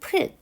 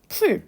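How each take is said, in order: First: The vowel is unrounded, like 'eu'. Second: The vowel is rounded, like 'u'. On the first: This is how it was said in older Korean. "이 당시에는 풀 이렇게 얘기했고요" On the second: This is the modern pronunciation. "풀이라고 발음을 해야 되는데"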